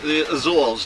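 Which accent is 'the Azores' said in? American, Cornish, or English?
English. It is said in a standard English accent. "The rest of England calls it the Azores"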